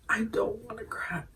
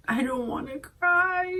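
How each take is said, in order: First: Soft breathy whisper of "cry"; whispered, fighting tears. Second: Choked up. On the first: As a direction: whisper through held-back tears. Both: Real, not acted.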